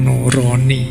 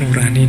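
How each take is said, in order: First: The middle vowel is a rounded 'o' sound. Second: The middle vowel is an open 'a' sound. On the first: The speaker calls it wrong. "jangan dibaca basa Jawa" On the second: The speaker calls it right. "Itu nurani bahasa Indonesia ya"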